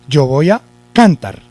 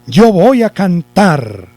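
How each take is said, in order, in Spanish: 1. El acento está en la primera sílaba. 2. El acento está en la última sílaba. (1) "Vamos a suponer que lleva el acento en la sílaba can" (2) "Ahí sí está el acento, ¿no? Está en la última sílaba"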